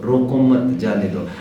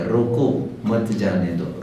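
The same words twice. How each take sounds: First: "रोको मत" joined, then a break before "जाने दो"; slowly group "रोको मत", then release "जाने दो"; pause after मत. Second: Slow, with a break right after "रोको"; pause after रोको. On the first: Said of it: "कहाँ अल्प विराम लेना है". ("रोको मत" साथ, विराम, फिर "जाने दो") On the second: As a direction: set "रोको" apart, then join "मत जाने दो". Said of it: "जीवन में कहाँ पूर्ण विराम लेना है". ("रोको" पर विराम, फिर "मत जाने दो" एक साथ) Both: Shown as a demonstration.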